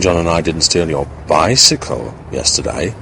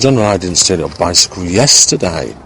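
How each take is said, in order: First: The word bicycle is stressed. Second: The word yesterday is stressed. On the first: Something else was stolen instead. "suggesting that we may have stolen something else" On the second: The stealing happened on another day. "by underlining, seeing that yesterday was the, in a sense, the only day"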